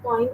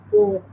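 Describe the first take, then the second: First: Poem squashed into "poym"; poem mispronounced to rhyme with "coin"; wrong pronunciation. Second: Poem in two syllables, "po-em"; poem with a clear long O, then "em"; correct pronunciation. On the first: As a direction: show the mistake, poem as one syllable with OY. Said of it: "it's not poem". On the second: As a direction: model poem as PO-em. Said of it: "Two syllables". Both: Shown as a demonstration.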